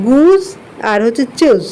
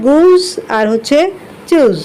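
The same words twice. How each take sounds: The two takes are said the same way.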